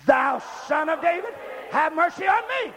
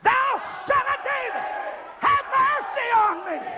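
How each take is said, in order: First: Raised, measured congregational call; louder call. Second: High, straining plea for mercy; desperate cry. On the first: Leading the church to say it, louder call. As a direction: call it out firmly, short of desperation. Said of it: "Louder and louder and louder". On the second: Leading the church in begging mercy, desperate cry. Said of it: "Now say it with desperation". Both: Shown as a demonstration.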